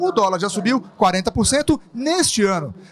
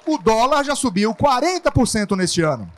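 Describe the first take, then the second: First: The emphasis falls on neste ano. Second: The emphasis falls on the word dólar. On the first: The time period of the rise is what matters. "por fim, o período em que o dólar sofreu tal aumento" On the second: The currency is what matters. "Na primeira frase, eu quero chamar a atenção para a moeda dólar"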